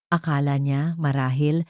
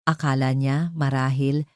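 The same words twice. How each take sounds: The two takes are said the same way.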